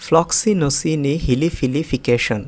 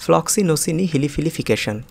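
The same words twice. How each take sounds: First: ফ্লক্সিনোসিনি হিলিফিলিফিকেশন drawn out slowly, piece by piece; slow, broken up. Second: ফ্লক্সিনোসিনি হিলিফিলিফিকেশন run together quickly in one go; said faster. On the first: Teacher breaking ফ্লক্সিনোসিনি হিলিফিলিফিকেশন down for learners. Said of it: "একটু ভেঙে ভেঙে উচ্চারণ করি". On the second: Teacher showing the quick version of ফ্লক্সিনোসিনি হিলিফিলিফিকেশন. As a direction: rattle off ফ্লক্সিনোসিনি হিলিফিলিফিকেশন briskly. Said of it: "একটু দ্রুত উচ্চারণ করছি". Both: Shown as a demonstration.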